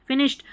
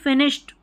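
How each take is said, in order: The two takes are said the same way.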